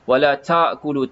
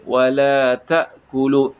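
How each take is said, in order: First: The t has a strong puff of air. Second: The t has only a slight puff of air. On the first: The speaker calls it wrong. "kalau banyak" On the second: The speaker calls it right. "kita nak keluarkan bunyi desiran tu sedikit sahaja"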